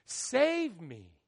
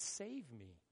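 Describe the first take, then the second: First: "Save me." said out loud, at full voice; pleading out loud. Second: Soft, low "Save me." almost under the breath; quiet plea. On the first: Preacher translating hosanna, second take full voice. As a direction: call "Save me." out as a cry. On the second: Preacher translating hosanna, first take soft. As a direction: murmur "Save me." as a private plea. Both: Shown as a demonstration. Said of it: "it's translated".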